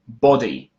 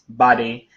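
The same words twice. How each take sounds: First: The first vowel is rounded, British style. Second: The first vowel is open and unrounded, American style. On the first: "Americans never say hot or body" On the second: "They always say"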